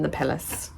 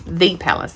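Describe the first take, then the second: First: Said in the usual way. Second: "The" said as "thee", singling it out; stress on THE. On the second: Real, not acted. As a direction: lean on "The", pronounced thee. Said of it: "They might live in a palace, but not the palace".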